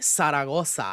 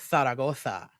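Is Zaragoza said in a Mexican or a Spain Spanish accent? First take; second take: Mexican; Spain. First: It is said in a Mexican accent, z as s. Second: It is said in a Spain Spanish accent. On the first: This is how Mexicans and Mexican Americans say it. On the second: This follows the name's original Spanish pronunciation. "if you want to go from where it's, the origins are, which are España"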